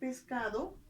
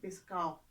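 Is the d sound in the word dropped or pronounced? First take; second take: pronounced; dropped. First: The d sound in the ending is pronounced. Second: The d sound in the ending is dropped. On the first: The speaker calls it right. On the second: The speaker calls it wrong.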